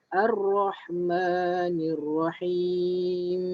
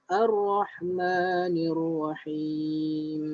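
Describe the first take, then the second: Both takes have the same delivery.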